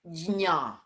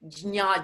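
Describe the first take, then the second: First: The j is sounded separately before the n. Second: It is said quickly, blending into ny. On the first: "Sound the J and say jna" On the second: "if you do it quickly, it becomes nya"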